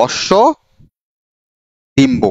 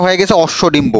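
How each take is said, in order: First: অশ্ব and Dimba said apart with a long gap between; slow word-by-word dictation; split into parts. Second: Said in the usual way. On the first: Shown as a demonstration. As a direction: break অশ্ব Dimba into its two words for dictation. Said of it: "এই শব্দটা হয়ে গেছে অশ্ব Dimba". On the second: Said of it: "এই শব্দটা হয়ে গেছে".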